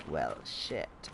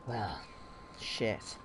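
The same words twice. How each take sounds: First: Low, quiet mock-dramatic "well, shit"; reading out quest name. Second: Low, quiet, two words apart; The Witcher. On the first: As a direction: drop the voice low for the quest title. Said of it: "it's more like". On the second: Retold or imitated. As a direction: imitate a monster hunter, low with a pause between words. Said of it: "sounded a bit more like The Witcher".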